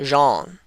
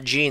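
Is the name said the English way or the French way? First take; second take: French; English. First: The name is said with a French sound. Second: The name is said with an English sound. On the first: The speaker calls it right. "it's probably a French pronunciation of Jean" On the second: The speaker calls it wrong. "that's probably not Jean"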